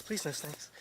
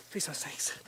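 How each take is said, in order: First: Said in the usual way. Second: Frightened whispered prayer; whispered plea. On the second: Real, not acted. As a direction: beg under your breath. Alone on Snake Island praying.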